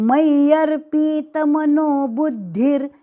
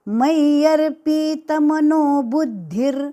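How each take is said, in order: First: The vowel after p is long. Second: The same.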